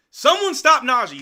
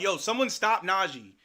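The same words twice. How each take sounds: First: Louder, higher repeat of the plea; frustrated fan shouting at the TV; exasperated shout. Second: Said in the usual way. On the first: Real, not acted. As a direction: yell it at the screen in disbelief.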